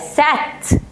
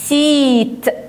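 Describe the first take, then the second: First: The vowel is a short ah sound. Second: The vowel is a long ee sound. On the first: The speaker calls it wrong. "ولا سات" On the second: The speaker calls it right. "سيت نطقته اي"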